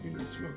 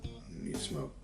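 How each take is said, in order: First: The phrase is repeated at a quicker pace. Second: The phrase is repeated at a slower pace. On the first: The craving is growing more insistent. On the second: The craving is still a small, ignorable whisper.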